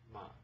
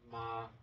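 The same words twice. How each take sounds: First: It is said lightly and briefly, without tone. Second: It is said on a high, flat pitch. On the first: "the second one is the neutral tone" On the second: "the first one is you know, the high flat tone"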